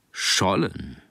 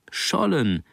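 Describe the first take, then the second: First: Said in the usual way. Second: Higher, proudly confirming the catch. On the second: A narrator's reading. Mother proudly confirms the son's catch to the father, proud. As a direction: say it with a mother's pride. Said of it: "den gleichen Stolz in ihrer Stimme".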